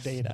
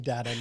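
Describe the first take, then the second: First: The first syllable sounds like 'day'. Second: The first syllable sounds like 'dah'. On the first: The speaker calls it wrong. "not data" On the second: The speaker calls it right. "That's it's got to be data"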